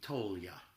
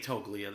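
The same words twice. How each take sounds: First: The name is said the Italian way. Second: The name is said the American way.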